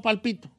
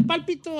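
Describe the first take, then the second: First: Palpito with the beat on PI; stress on middle syllable. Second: Pálpito with the beat on PÁL; stress on first syllable. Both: Shown as a demonstration. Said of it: "no sé yo cómo".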